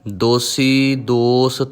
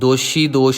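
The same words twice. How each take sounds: First: The words are said with a plain s sound. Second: The words are said with an sh sound. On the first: The speaker calls it right. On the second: The speaker calls it wrong.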